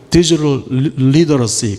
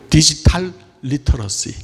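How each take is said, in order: First: The t is softened into a d-like flap. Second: The t is said as a clear t. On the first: "미국 사람들은 어떻게 발음해요? ... 그렇게 발음합니까?" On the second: "저는 그건 모르겠고"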